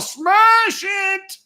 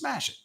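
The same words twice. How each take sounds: First: It is said in a put-on character voice. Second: It is said in a normal speaking voice.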